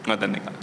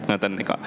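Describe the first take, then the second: No difference in how they are said.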